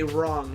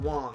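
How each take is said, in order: First: The word starts with a clear r sound. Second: The word starts without a clear r sound. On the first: The speaker calls it right. "I meant to say wrong" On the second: The speaker calls it wrong. "not wong"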